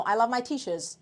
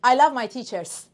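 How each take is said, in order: First: "teachers" ending in a relaxed z; easy teachers ending. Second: "teachers" ending in a hard hissed s; wrong teachers ending. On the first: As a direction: let "teachers" end on an effortless buzzed z. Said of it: "It's very easy to say teachers". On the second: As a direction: hit "teachers" louder with a sharp s at the end. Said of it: "It's very hard to say teachers". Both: Shown as a demonstration.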